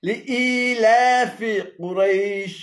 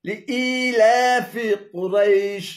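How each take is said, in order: The two takes are said the same way.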